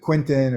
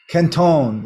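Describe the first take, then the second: First: The name is said with an English pronunciation. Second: The name is said with a French pronunciation. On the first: "people here pronounce it Quinton" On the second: "Canton is how you pronounce it in French"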